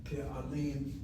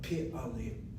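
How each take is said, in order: First: The first vowel sounds like 'e'. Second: The same.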